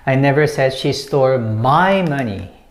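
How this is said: The word my carries the stress. She took someone else's money. "when you put emphasis on my"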